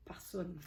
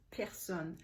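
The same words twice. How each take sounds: First: Personne as "pa-soune", the r dropped and a round vowel; dialect pronunciation. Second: Personne in standard French, clear "per" with open e. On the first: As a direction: say personne like a village Acadian speaker. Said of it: "over there it's pronounced personne". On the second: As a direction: say personne the Paris way, per-SONNE. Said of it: "it's pronounced personne". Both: Shown as a demonstration.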